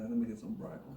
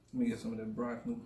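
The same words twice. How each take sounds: First: Said in the usual way. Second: Fast mumble through a mouthful; talking while chewing food; mouth full. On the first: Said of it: "plain take before eating". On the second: Real, not acted. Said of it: "I'm talking with my mouth full".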